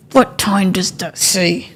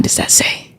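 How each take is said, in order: First: Hushed. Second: Whisper. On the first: Repeats, slower and softer. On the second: Hushed question to viewers. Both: Real, not acted.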